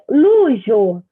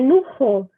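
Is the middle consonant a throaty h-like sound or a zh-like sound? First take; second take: zh-like; h-like. First: The middle consonant sounds like zh. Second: The middle consonant is a throaty h sound. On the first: The speaker calls it wrong. "Se eu ler luxo, é mais difícil de associar" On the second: The speaker calls it right. "o J tem sempre som de R"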